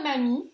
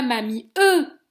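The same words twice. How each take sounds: First: Said in the usual way. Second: "mamie e" with the final e wrongly sounded; "mamie e", the mute last letter pronounced as its own syllable; silent letter voiced. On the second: Shown as a demonstration. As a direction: add a separate, loud "e" after "mamie". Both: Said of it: "On dit pas mamie e".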